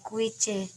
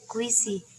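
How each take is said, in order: First: The letters are read with Indonesian letter names. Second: The letters are read with English letter names. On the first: The speaker calls it wrong. "Jadi bukan dibaca kuice" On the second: The speaker calls it right. "untuk membaca bahasa Inggris"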